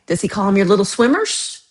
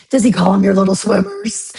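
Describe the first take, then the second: First: Said in the usual way. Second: Mock cutesy teasing. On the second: Mocking someone's doctor's word for sperm, silly teasing voice. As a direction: tease with a hammed-up, rising squeal at the end.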